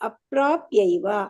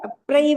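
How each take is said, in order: First: Every syllable of the word is said clearly. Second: The middle syllables are merged into one shortened sound. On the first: The speaker calls it right. "ಪ್ರಾಪ್ಯೈವ ಬರ್ಬೇಕು, clear ಆಗಿ ಕೇಳ್ಬೇಕು" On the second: The speaker calls it wrong. "ಅಪ್ರೈವ ಅಲ್ಲ"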